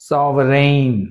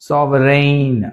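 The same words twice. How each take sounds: Both takes have the same delivery.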